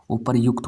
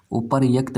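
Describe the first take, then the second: First: उपर्युक्त as "upar-yukt"; correct "yukt" form. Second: उपर्युक्त as "upar-yakt"; wrong "yakt" form. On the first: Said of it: "होता है". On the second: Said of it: "भाई नहीं होता". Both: Shown as a demonstration.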